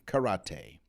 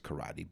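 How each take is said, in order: First: The word is said in a fancy way. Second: The word is said in the ordinary way. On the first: "I just figured I'd get a little fancy" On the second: "I know it's karate"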